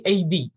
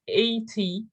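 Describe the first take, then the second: First: "A D" said like "ay-dee" for eighty. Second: "A T" with a crisp T, as in "eighty"; clear T. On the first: Teacher showing natural speech, "A D" with a D sound. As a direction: soften the T to a D in "A D". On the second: Teacher showing what to avoid, "A T" with full T. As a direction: sound the T fully in "A T". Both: Shown as a demonstration. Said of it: "Pronouncing T's as D's".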